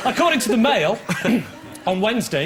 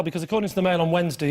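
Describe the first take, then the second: First: "According to the Mail," then a clear break before "on Wednesday"; pause after Mail. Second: "according to the Mail on Wednesday" rushed through quickly, no break after "Mail"; no pause after Mail. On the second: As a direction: run "Mail on Wednesday" together fast, as if one name. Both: Shown as a demonstration. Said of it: "I should have paused after Mail".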